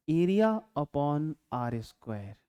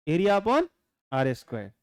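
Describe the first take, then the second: First: Very slow, measured dictation of the formula. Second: Said in the usual way. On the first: Shown as a demonstration. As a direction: draw out "Area upon आर square" word by word. Spells out definition slowly.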